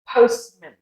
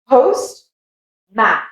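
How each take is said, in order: First: The second vowel is reduced to a weak schwa. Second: The second vowel is a full, clear ah sound. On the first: It is one word for the person who delivers post. "that's when you use the schwa sound" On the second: They are two separate words. "It sounds like that A is that very clear sound"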